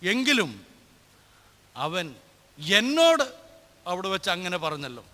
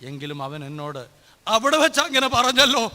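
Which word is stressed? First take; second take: എന്നോട്; അവിടെ. First: The stress falls on the word എന്നോട്. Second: The stress falls on the word അവിടെ. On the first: The point is that it was said to me. "രണ്ടാമത്തെ അതേ വാക്ക് തന്നെ" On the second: The point is where it was said. "മൂന്നാമത്തെ dialogue"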